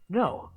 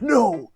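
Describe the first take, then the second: First: It is said in the speaker's normal voice. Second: It is said in a deep Batman-like voice.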